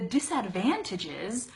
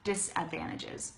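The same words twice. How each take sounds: First: Every syllable is fully and carefully pronounced. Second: The word is said quickly with reduced syllables. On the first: "I want to really pronounce this word" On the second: "we just say disadvantages"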